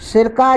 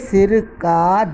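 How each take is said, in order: First: It is said in one go without a pause. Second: It is said with a pause between parts. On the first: A substance used for making pickles (vinegar). "झटके से बोलने पर" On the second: Belonging to the head. "विराम देने से"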